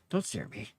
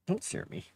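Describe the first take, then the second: First: Said in the usual way. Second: Whispered don't stare at me; hushed whisper to the cat. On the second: Real, not acted. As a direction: breathe "don't stare at me" without voice. Cat staring at her.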